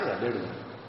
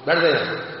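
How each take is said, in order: First: It is said calmly and politely. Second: It is said angrily and rudely.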